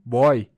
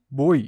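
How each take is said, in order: First: The diphthong starts with an open o vowel. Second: The diphthong starts with a closed o vowel. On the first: The speaker calls it wrong. "e não" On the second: The speaker calls it right. "o ditongo é fechado"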